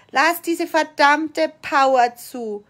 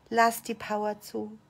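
First: Loud, slow, emphatic command; emphatic demand, drawn out; forceful urging. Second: Soft, low-key instruction; restrained, softly spoken prompt; quiet urging. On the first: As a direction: drive it home word by word, with force. Same urging repeated with force. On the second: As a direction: say it quietly and evenly, holding back. Coach says it low, then forcefully. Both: Shown as a demonstration.

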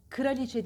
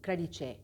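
First: Kraliçe said as "kıraliçe"; wrong extra vowel. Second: Kraliçe with K and R joined; correct cluster. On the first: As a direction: show the faulty "kı-raliçe". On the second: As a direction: model kraliçe with no ı after k. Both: Shown as a demonstration. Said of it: "Kraliçe değil".

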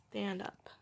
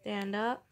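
First: Soft unvoiced whisper. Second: Said in the usual way. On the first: Real, not acted. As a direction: breathe it to the cat. Whispering to cat.

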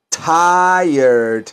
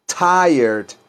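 First: Tired said slowly as "tai-erd", two beats; pronunciation model. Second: Said in the usual way. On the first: Shown as a demonstration. Teacher shows students how to say Tired, drawn out. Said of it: "¿cómo se pronuncia?". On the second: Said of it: "Repítanlo".

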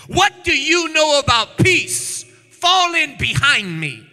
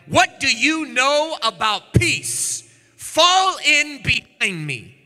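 First: Defiant command. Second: Defiant. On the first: Jehu repeats defiant reply. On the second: Jehu defiant reply in story. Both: Acted.

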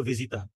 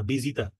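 First: ভিজিতা starting with a V sound; Portuguese V sound. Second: ভিজিতা starting with a B sound; Spanish B for V. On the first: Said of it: "আর পর্তুগিজে হচ্ছে হলো". (ভিজিতা, শুরুতে স্পষ্ট ভ ধ্বনি) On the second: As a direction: say ভিজিতা as bi-ji-tar. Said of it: "ভিজিতার না কিন্তু না". (ভিজিতা, ভ-এর জায়গায় ব ধ্বনি) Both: Shown as a demonstration.

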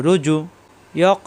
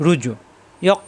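Both takes have the same delivery.

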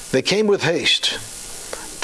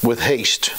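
First: They came with haste drawn out very slow, leaning on "with"; stress on with haste. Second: Said in the usual way. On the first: Shown as a demonstration. Preacher slowing down to stress the shepherds' hurry. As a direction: linger over "with haste" to make the point.

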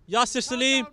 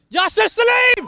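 First: Said in the usual way. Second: Name shouted high and loud; excited yell. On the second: Real, not acted. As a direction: belt the name out as he runs at goal. Name yelled as he breaks.

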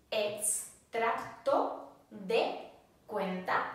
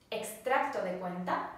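First: Slowed right down, each syllable clear; slow model phrase. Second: Said in the usual way. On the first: Shown as a demonstration. Teacher slowing down so students can repeat. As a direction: spell out Extracto de cuenta slowly for learners. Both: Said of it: "Statement means".

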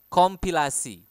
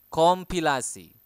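Both takes have the same delivery.

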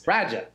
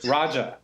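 First: Raja as a Boston-accent Roger, R dropped. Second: Said in the usual way. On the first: Shown as a demonstration. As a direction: say Raja the Boston way, flat a, no final R. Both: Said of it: "if you say Roger with a Massachusetts accent".

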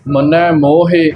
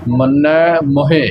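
First: ਮੋਹਿ with a long, full o; mistaken long vowel. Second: ਮੋਹਿ said muhe, with a short u; both vowels short. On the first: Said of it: "ਇਸ ਨੂੰ ਕਨੌੜਾ ਨਹੀਂ ਬਣਾ ਦੇਣਾ". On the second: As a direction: keep the first vowel of ਮੋਹਿ brief. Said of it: "ਇਸ ਪ੍ਰਕਾਰ ਇਸ ਦਾ ਉਚਾਰਨ ਕਰਨਾ". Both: Shown as a demonstration.

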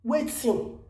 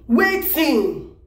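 First: Muttered wetin. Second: Said in the usual way. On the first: Real, not acted. Vlogger asking the agitator under her breath, muttered. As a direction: drop the voice on Wetin? like a shocked aside.

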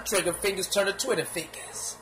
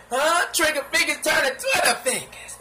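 First: Said in the usual way. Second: Higher, laughing mockery; mocking, higher. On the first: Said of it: "repeats line". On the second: Shown as a demonstration. Mocking the rapper's line to viewers, laughing and higher. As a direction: tease it with a laugh. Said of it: "repeats line louder".

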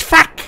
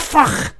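First: Said in the usual way. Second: "fuck" said as "fokh", with a rounded vowel and throaty scrape at the end; mocking "fuck" with a guttural fricative ending; mimicked accent pronunciation. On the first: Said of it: "It's not fuck". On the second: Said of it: "It's fuck".

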